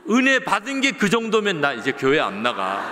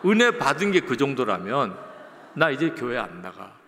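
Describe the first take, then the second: First: Loud, higher, laughing through the words; laughing punchline. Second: Said in the usual way. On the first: Retold or imitated. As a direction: laugh out the joke, louder and higher.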